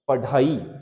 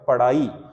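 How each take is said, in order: First: The consonant is a full aspirated stop. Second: The consonant is a quick aspirated flap. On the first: "अगर इसको हम ऐसे पढ़ेंगे तो ये कहलाएगा" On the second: "अगर इसमें ये लगा देंगे तो ये हो जाएगा"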